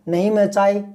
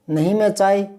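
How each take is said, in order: Both takes have the same delivery.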